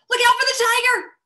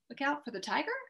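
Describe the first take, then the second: First: It is said with strong, excited expression. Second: It rises at the end like a question.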